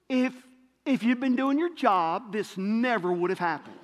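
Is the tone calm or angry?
calm. It is said in a milder, calmer tone. "I said it this way"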